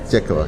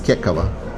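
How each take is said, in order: First: The first sound is a soft, T-like K. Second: The first sound is a plain hard K. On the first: The speaker calls it right. "It's called Tekava" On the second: The speaker calls it wrong. "Every single Russian one, he would say it's Kekava"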